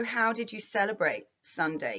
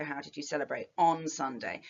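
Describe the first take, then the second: First: Said in the usual way. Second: "on" slightly marked as the added word; the word "on" set apart as the restored preposition; stress on on. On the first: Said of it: "note the elliptical phrasing". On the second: Shown as a demonstration. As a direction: lean on "on" in "celebrate on Sunday". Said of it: "You're missing the preposition".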